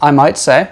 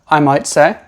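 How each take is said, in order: The two takes are said the same way.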